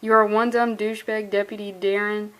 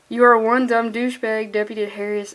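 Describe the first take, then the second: First: Stifle a smile as you read; a hint of a laugh in the voice; smiling. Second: Grinning through the line; a hint of a smile in the voice; fighting back a grin while reading; smiling. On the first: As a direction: reread while grinning. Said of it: "You can hear it in my voice". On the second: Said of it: "I'm just, like, smiling". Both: Real, not acted.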